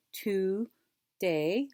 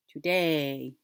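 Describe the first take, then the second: First: TODAY as TO, pause, DAY; split into syllables. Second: Said in the usual way. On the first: Shown as a demonstration. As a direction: hold the two parts of TODAY apart. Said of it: "do the two parts". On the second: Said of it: "bring 'em together".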